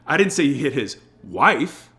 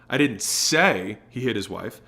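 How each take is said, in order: First: The word "wife" is stressed. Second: The word "say" is stressed.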